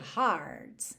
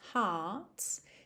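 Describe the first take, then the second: First: The r is pronounced, American style. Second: The r is dropped, British style. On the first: "Se fosse americano" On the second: "ela também faz esse T bem marcadinho"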